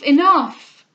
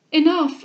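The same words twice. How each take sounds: First: Enough cried even louder, breaking; louder plea. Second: Louder, higher pleading cry; overwhelmed plea. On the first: Cecilia begging Mrs Delvile to stop, louder still. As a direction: push the plea to its peak. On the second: Cecilia begging Mrs Delvile to stop, a rising cry. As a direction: beg her to stop. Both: Acted. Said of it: "said Cecilia".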